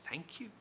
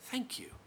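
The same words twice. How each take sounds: First: Soft, very quiet thank you rising into a question; incredulous echo. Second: High, quiet Galilean drawl with a falling thank you; a slow Galilean drawl on thank you, the word sinking at the end. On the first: The narrator echoes the rival's thanks back as an incredulous question. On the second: The rival thanks the narrator in a high Galilean drawl. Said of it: "ignorant Galilean drawl". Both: A narrator's reading.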